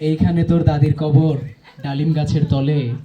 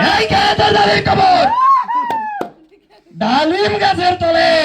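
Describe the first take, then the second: First: It is recited in a plain, ordinary way. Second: It is declaimed like a political speech. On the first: "সাধারণ ভাবে কেউ একজন পড়ে" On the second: "একজন রাজনীতিবিদ"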